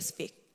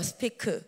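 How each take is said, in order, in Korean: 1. 짧은 한 음절로 발음해요. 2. 세 개의 음절로 나누어 발음해요. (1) "일음절 단어예요" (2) "우리나라 말로는 스피크예요"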